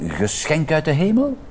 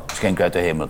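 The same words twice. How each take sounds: First: "geschenk uit de hemel" rising to a high questioning end; tentative suggestion. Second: "geschenk uit de hemel" low, soft and falling; dismissive repeat. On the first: Mika proposes a name, tentative rising "geschenk uit de hemel". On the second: Pip rejects the name, dismissive falling "geschenk uit de hemel". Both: Acted.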